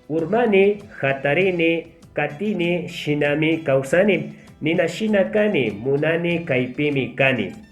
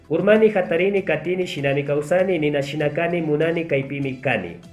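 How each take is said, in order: First: It is read at a slow pace. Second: It is read at a very fast pace. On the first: "Vamos a empezar leyendo lo más lento" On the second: "la tercera voy a hacer lo más rápido posible"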